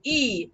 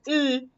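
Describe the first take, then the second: First: The vowel is made further forward in the mouth. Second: The vowel is made far back in the mouth. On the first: The speaker calls it right. "I can move forward and I can do E" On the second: The speaker calls it wrong. "which is go in early in the back"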